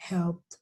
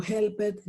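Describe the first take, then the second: First: "helped" in one syllable, helpt. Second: "helped" in two syllables, hel-pet; wrong pronunciation. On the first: Teacher modelling the correct form, T ending. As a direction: end "helped" on pt, no vowel. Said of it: "Todos con una T al final". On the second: Teacher recalling the mistake, mispronounced. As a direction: sound the e in "helped". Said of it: "ya no digo". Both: Shown as a demonstration.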